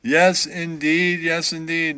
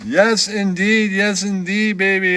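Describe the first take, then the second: First: Slow, drawn-out yes indeed; slow catchphrase. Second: Slow drawled yes indeed; smooth catchphrase. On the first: Shown as a demonstration. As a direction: stretch out yes indeed as a hometown saying. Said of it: "That's what they say where I'm from". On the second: Acted. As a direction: savor the catchphrase like a lounge host. Catchphrase bit.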